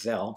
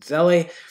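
First: The name ends without a final vowel sound. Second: The name ends with a final 'ee' sound. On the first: This is how the name is properly pronounced. "I think it's actually pronounced Zell" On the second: This is the speaker's own habitual pronunciation. "but I pronounce it Zelli"

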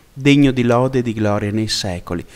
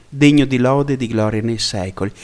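Both takes have the same delivery.

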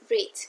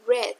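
First: The word sounds like 'reed'. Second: The word sounds like 'red'. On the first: It is the present or infinitive form. "En infinitivo se escribe así y se pronuncia read" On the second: It is the past form. "pero se pronuncia red, como el color"

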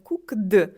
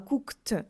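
First: The ending is not pronounced as a t sound. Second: The ending is pronounced as a t sound. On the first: The speaker calls it wrong. "не cooked" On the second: The speaker calls it right. "а cooked"

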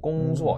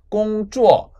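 First: The second syllable starts with a weakened, s-like sound. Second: The second syllable starts with a crisp affricate. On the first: "앞에 어떤 글자가 있으면 약해져가지고 공수어" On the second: "원래는 제트유오가 쭈어가 맞아요"

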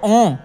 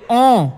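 First: The vowel sounds loose and unclear. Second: The vowel sounds focused and clear. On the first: The speaker calls it wrong. "वरना तो ओं ऐसे भी बोला जा सकता है" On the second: The speaker calls it right. "पर एक ओं ऐसे बोलोगे तो प्रॉपर निकलेगा साउंड"

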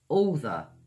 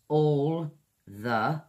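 First: The two words run together as one. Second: The two words are said separately. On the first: "linking all the" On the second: "Two separate words"

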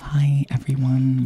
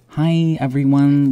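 First: It is said quietly, softly. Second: It is said at normal loudness.

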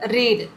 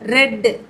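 First: The vowel is long, as in 'reed'. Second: The vowel is short, as in 'red'. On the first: It is the past participle form of the verb. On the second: It is the past form of the verb.

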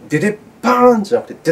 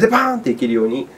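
First: A gap comes before the final 'paan'. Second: The final 'paan' follows 'dede' with no gap. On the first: The speaker calls it wrong. "パーンが遅れてしまうと" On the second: The speaker calls it right. "デデパーンっていけるように、心がけてやってみてくださいませ"

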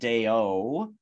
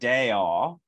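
First: The O vowel is closed. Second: The O vowel is open. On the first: The speaker calls it wrong. "it's not deo" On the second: The speaker calls it right. "that sort of more open"

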